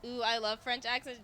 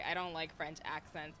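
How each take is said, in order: First: A gushing, put-on "Ooh, I love French accents"; mock gushing. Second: Said in the usual way. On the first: Teasing a co-host, she fakes loving French accents. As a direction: say "love" like a fake fan, slightly louder. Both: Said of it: "Johos, I'm so sorry".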